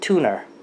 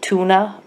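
First: The word ends in an 'er' sound. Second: The word ends in a plain 'uh' vowel. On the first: "My mother calls it tuner" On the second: "like tuna"

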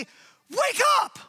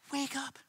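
First: It is said loudly and urgently. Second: It is said softly and gently. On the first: The danger is urgent and real. "Or do you want me to say" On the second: The speaker avoids seeming harsh. "I'd say it louder, but I don't want you to get the wrong opinion of me"

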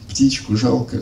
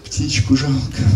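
First: It is said in an ironic tone. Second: It is said in a very sad tone.

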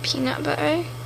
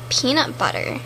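First: It is said in a British accent. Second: It is said in an American accent. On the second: "So first up is American twink"

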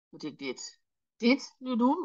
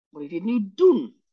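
First: The stress is on "dit". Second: The stress is on "doen".

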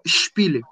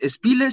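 First: The S before the P sounds strong. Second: The S before the P sounds weak. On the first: The speaker calls it right. "la S suena más fuerte" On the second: The speaker calls it wrong. "no dices Spiele"

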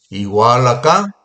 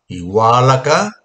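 The two takes are said the same way.

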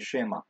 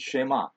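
First: The stress is on the first syllable. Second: The stress is on the last syllable. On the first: "You'll hear people say Shema" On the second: "the emphasis is on the last syllable"

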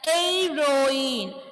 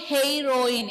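First: The word begins with no h sound. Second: The word begins with an audible h sound. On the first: The speaker calls it right. "I am pronouncing as heroine. H is silent here" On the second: The speaker calls it wrong. "I am not saying heroine"

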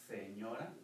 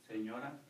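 The two takes are said the same way.

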